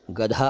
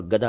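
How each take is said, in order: First: First गधा as gadha, breath on dh; donkey word, aspirated. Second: Second गधा as gada, plain d; beggar word, unaspirated. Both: Shown as a demonstration. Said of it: "गधा अलग है और गधा अलग है".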